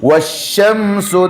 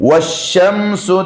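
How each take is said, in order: Both takes have the same delivery.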